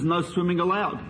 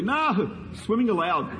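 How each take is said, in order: First: It runs on with no pause after "no". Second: It has a clear pause after "no". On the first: Swimming is forbidden. "It says" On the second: Swimming is permitted. "I read it differently"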